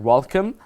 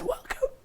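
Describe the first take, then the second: First: It is said in a clear, strong voice. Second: It is said in a hoarse, worn-out voice.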